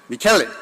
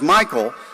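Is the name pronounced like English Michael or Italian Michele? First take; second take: Michele; Michael. First: The name is said like Italian Michele. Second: The name is said like English Michael. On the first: This is the name's correct pronunciation. "the correct pronunciation, I believe, is" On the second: This is the name people commonly use. "he's known as Michael"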